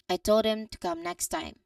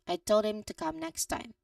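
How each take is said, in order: First: It is natural, with the h in 'him' dropped. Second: The same.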